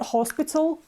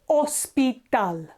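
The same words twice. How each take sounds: First: The word begins with a sounded h. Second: The word begins with a silent h. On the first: The speaker calls it wrong. "It's not hospital" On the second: The speaker calls it right. "H is silent, so we don't pronounce it"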